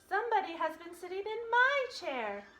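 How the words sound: It is said in a middle-sized voice.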